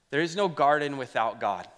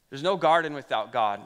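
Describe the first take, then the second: First: "no" leaned on, falling firmly; stress on no. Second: "no" louder and more forceful, falling; stress on no. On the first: Pastor declaring to the church, stressing no. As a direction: hit the word "no" firmly. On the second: Pastor repeating the line to the church, more forceful. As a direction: punch "no" harder the second time. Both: Shown as a demonstration.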